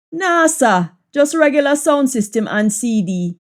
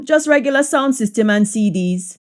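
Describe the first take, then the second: First: Casual Jamaican patois. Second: Said in the usual way. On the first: Shown as a demonstration. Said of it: "patois version of the line". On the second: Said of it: "English version before patois".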